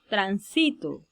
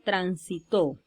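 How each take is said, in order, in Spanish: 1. El acento está en la segunda sílaba. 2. El acento está en la tercera sílaba. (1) "una palabra grave" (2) "una palabra aguda"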